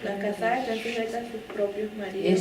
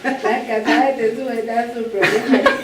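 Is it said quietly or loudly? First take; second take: quietly; loudly. First: It is said fairly quietly. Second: It is said loudly and forcefully.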